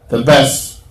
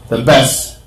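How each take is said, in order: The two takes are said the same way.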